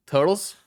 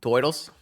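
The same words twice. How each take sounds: First: "Turtles" in a light New York accent, higher and louder; tentative New York accent. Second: Put-on "Turtles" as "toidles", old New York vowel; broad New York accent. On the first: Streamer testing how New Yorkers say turtles, tentative New York accent. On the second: Streamer practising turtles, broad New York "toidles" accent. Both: Shown as a demonstration. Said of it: "how do you say turtles in a New York accent".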